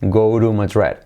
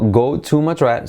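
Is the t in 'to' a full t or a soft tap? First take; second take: soft tap; full t. First: The t in 'to' is a soft tap. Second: The t in 'to' is a full t.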